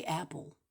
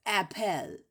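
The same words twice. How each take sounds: First: Said in the usual way. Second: "apple" as ap-PELL, with a clear E; spelling pronunciation. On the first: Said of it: "You say apple". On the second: Shown as a demonstration. Arguing about the silent E, "apple" as ap-PELL. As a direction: sound the E in "apple": AP-ELL. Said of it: "E L is at the end".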